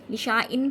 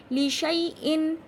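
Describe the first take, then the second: First: "लिशा इन" with a long shaa; alif read out. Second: "लिशाई इन" chanted slow and loud, shai without long aa; silent alif. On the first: Teacher showing the tempting wrong reading, "लिशा इन" with long aa. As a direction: say "लिशा इन" as written, sounding the alif. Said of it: "पढ़ना चाहिए था इसे". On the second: Teacher answering how it is read, slow "लिशाई इन". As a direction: recite "लिशाई इन", leaving out the alif. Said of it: "क्या पढ़ा जाएगा?". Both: Shown as a demonstration.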